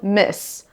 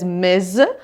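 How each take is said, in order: First: The word ends with a hissing s sound. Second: The word ends with a buzzing z sound. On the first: The speaker calls it wrong. "not Miss" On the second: The speaker calls it right. "You should say it as Miz"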